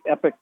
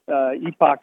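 First: It is said like 'epic', short first vowel. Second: It is said like 'ee-pock', long first vowel. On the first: This is the easier, more familiar way to say it. "I think epic kind of comes off my tongue easier" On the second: This is the British way of saying it. "Epoch is more of a British pronunciation"

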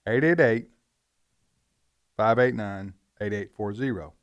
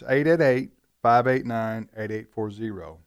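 First: The number is said slowly and deliberately. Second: The number is said at a quicker pace.

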